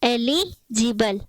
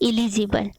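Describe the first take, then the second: First: The first vowel sounds like 'eh'. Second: The first vowel sounds like 'ih'. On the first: The speaker calls it right. "इसको हम पढ़ते हैं एलिजिबल" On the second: The speaker calls it wrong. "ना कि इलिजिबल"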